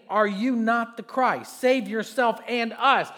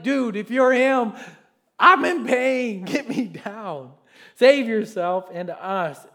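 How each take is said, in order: First: Slow, louder scripture reading of a taunt; loud reading of the criminal railing. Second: Slow, loud pained plea; mock pained criminal begging loud; pleading criminal. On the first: Acted. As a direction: read the criminal's taunt with force. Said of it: "railed at him, saying". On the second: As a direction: cry out in mock pain.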